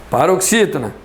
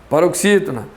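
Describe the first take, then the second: The two takes are said the same way.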